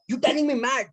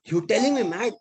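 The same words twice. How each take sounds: First: Much higher, escalating outraged repeat; even angrier repeat. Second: High, indignant outraged challenge; furious retort. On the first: Insulted auto driver repeating himself, rising into a furious yell. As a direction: repeat it, pushing the fury higher. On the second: Auto driver insulted by passenger, shouting indignantly. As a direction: throw the insult back at him, offended. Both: Retold or imitated. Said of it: "he became furious, angry".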